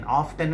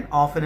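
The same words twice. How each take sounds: First: "often" with the t sounded, OF-ten; wrong pronunciation. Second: "often" with a silent t, OF-en; correct pronunciation. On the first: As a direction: say "often" pronouncing the t clearly. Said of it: "often అని చదవకూడదు". ("often" లో t ని పలుకుతూ తప్పుగా) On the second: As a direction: say "often" without the t. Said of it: "often అని చదవాలి". ("often" లో t పలకకుండా సరిగ్గా) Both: Shown as a demonstration.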